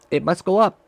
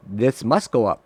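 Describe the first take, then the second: First: Much higher, rising on up; willing the price upward, voice climbing; hopeful, urging. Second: Said in the usual way. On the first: Real, not acted.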